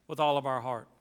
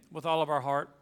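No difference in how they are said.

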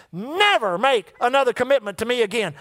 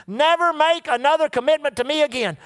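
First: Said in the usual way. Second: NEVER punched and raised, falling to the end; emphatic repeat. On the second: Retold or imitated. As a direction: drive "Never" home like a command. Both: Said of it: "actually said it to me three times".

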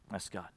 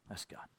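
First: Said in the usual way. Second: Near-whispered repeat, much softer; soft echo of the line before; hushed echo. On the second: Acted. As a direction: let it fall to a breath. Echoed repeat, dropped to near silence.

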